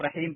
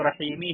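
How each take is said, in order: First: The word ends on the final consonant m. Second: The word ends with a short i vowel. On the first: "लेकिन आप रहीम पढ़ते हैं" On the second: "वहाँ पे कसरा है"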